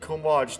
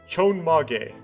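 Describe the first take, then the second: First: It starts with 'k' and ends clipped. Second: It starts with 'ch' and has four syllables. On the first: The speaker calls it wrong. "I probably I pronounced that way wrong" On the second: The speaker calls it right. "There we go"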